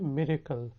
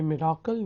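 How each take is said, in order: First: मिरेकल with a short middle vowel, "MI-re-kal"; correct miracle pronunciation. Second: मिराकल with a long "aa" in the middle; mispronounced miracle. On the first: Teacher correcting learners' reading, मिरेकल with short middle "e". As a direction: say मिरेकल without any long "aa". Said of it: "ये होता है मिरेकल". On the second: Teacher showing learners the mistaken reading, मिराकल with long "aa". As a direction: say मिराकल as "mi-RAA-kal". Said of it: "ये मिराकल नहीं". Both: Shown as a demonstration.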